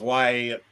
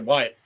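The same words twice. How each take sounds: First: The name is drawn out over two syllables. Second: The name is squeezed into one syllable. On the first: This is how a Southerner says it. "make it two syllables" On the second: This is how many people say it. "it sounds like they said said wide"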